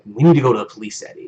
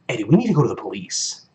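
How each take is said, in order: First: It sounds lukewarm, with low stakes. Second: It sounds urgent, with high stakes.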